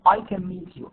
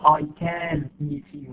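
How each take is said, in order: First: The word 'can' is weak and unstressed. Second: The word 'can' is full and stressed. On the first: The speaker calls it right. "we say I can meet you" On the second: The speaker calls it wrong. "We don't say I can meet you"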